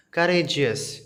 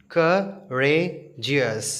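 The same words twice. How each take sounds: First: Said in the usual way. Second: Courageous stretched slowly as cou-ra-geous; syllable by syllable. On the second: Shown as a demonstration. Teacher sounding out syllables for children, slowly. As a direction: sound out courageous in three slow beats. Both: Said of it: "three syllables".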